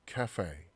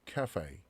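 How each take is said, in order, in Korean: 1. 영어식 발음으로 해요. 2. 영어식 발음으로 해요.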